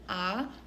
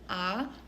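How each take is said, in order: First: The pitch rises from middle to high. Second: The same.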